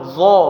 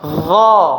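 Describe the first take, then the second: First: It is said with pushed-out, rounded lips. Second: It is said with the mouth simply open. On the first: The speaker calls it wrong. "jangan monyong bibirnya, jangan dha" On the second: The speaker calls it right. "Biasa, dibuka aja"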